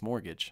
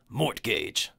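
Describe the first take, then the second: First: The word is said in its usual spoken form. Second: The word is sounded out as it is spelled. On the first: The speaker calls it right. "It's mortgage" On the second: The speaker calls it wrong. "It says mortgage, mortgage, but that's not how it's pronounced"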